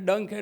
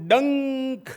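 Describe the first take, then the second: First: The word is said plainly, in normal metrical length. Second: The word is said with heightened, drawn-out intensity. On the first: The word is counted by its plain metrical length. "એ ડંખ એટલે ગુરુ લઘુ જ" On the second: The word's sting is emphasized in recitation. "જો મારે ડંખ શબ્દની તીવ્રતા કરવી હોય તો હું ડંખ એમ બોલું"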